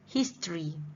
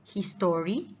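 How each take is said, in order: First: The middle syllable is shortened or dropped. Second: Every syllable is said as it is spelled. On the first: The speaker calls it right. "sebutan yang betul is history" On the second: The speaker calls it wrong. "Walaupun ejaan dia macam history"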